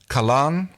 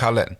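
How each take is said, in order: First: The last syllable sounds like 'lan'. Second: The last syllable sounds like 'len'. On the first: The speaker calls it wrong. "is that how you pronounce it again?" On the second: The speaker calls it right. "I think it's Kalen. She's always said it called Len"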